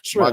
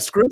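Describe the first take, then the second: First: The word begins with an sh sound. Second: The word begins with an sk sound. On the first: The speaker calls it right. "I was like" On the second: The speaker calls it wrong. "she's pronounces shrimp like scrimp"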